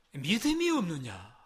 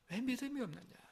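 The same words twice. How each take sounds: First: 믿음이 stressed, said slowly and firmly; slow, firm rebuke. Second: 믿음이 raised in a soft, much quieter voice; soft, higher rebuke. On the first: Pastor pressing Jesus' question on the congregation, slow and firm. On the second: Pastor gently asking the congregation why they lack faith, soft and higher. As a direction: drop to a soft, higher, pleading ask. Preacher repeats Jesus' rebuke. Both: Acted.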